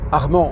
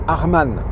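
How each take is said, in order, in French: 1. Le nom se prononce comme un prénom français typique. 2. Le nom se prononce d'une manière non française. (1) "ça ne se prononce pas Armand" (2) "mais Arman"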